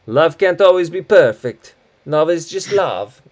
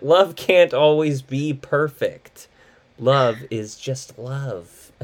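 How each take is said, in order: First: High, loud imitation of Massimo's accent; movie character's accent. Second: Slow, deliberate "Love can't always be perfect" without the accent; clearly understandable. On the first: Host quoting Massimo's favorite line, in exaggerated accent. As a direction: put on a hammy movie accent. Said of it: "like this one where it's like". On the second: Shown as a demonstration. Host repeating Massimo's quote so people understand, slow and clear. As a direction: say "Love is just love" slowly in plain pronunciation. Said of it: "so people can understand it".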